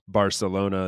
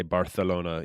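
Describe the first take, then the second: First: Said in the usual way. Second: Barcelona with a th lisp, Barthelona; Barcelona said the Castilian way; Spain Spanish lisp. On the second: Shown as a demonstration. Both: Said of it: "they say, like".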